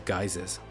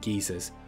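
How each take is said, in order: First: It uses the American pronunciation of the word. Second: It uses a non-American pronunciation of the word.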